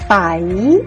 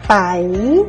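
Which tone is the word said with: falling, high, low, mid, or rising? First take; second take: rising; rising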